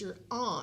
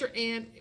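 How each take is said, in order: First: The vowel in aunt sounds like ah. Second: The vowel in aunt sounds like ant. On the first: This is the way people say it up east. "But she'd say it was your aunt" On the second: This is the Midwestern and Southern way of saying it. "which we say here in the Midwest and down south"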